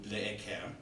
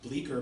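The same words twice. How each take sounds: First: The name is said with French-sounding vowels. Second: The name is said with ordinary English sounds. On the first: The speaker calls it wrong. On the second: The speaker calls it right.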